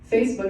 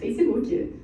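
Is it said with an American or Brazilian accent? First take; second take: American; Brazilian. First: It is said with a plain American accent. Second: It is said with a Brazilian accent.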